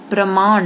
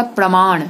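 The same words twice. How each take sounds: First: प्रमाण with dental "n"; wrong nasal. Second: Said in the usual way. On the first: Shown as a demonstration. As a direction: end प्रमाण on a plain "n". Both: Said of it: "नहीं होगा".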